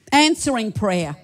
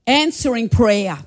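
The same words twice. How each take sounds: The two takes are said the same way.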